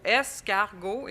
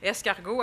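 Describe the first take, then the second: First: "Escargot" said slowly, every sound stretched; drawn-out word. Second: Said in the usual way. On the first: Shown as a demonstration. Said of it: "On entend aussi le A et le O". (« Escargot » prononcé lentement, chaque son étiré) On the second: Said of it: "on entend S comme il faut".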